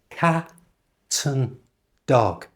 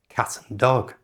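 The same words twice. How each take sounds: First: The phrase is said slowly. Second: The phrase is said at normal speed. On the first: "So slowly" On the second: "at a normal speed"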